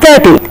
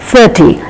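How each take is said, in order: First: The first sound is a hard stop. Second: The first sound is an airy th with breath. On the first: The speaker calls it wrong. "It is not thirty" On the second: The speaker calls it right. "the tip of the tongue has to come out of the lips, and there is slight release of air"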